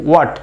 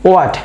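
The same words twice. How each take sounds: First: The word begins directly with a w sound. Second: The same.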